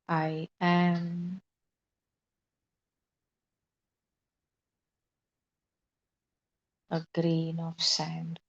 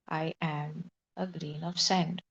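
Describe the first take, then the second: First: It is said with a pause after "I am". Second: It is said without a pause after "I am".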